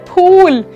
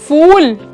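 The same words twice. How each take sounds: First: It begins with an aspirated p sound. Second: It begins with an f sound. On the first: It means a flower. The speaker calls it right. "फूल नहीं होता है, क्या होता है" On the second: It sounds like the English word for an idiot. The speaker calls it wrong. "फूल तो बेवकूफ हो गया"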